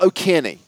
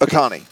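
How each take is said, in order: First: The name is said with a keer sound. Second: The name is said with a car sound. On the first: The speaker calls it wrong. "Not O'Kearney" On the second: The speaker calls it right.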